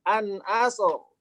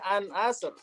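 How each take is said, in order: First: The final r is heavy and thick. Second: The final r is light and thin.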